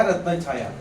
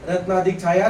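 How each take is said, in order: First: रत्न छाया said as one compound, falling; joined form. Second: Said in the usual way. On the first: Shown as a demonstration. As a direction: run रत्न छाया together, with the stress on रत्न. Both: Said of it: "या बघू मग".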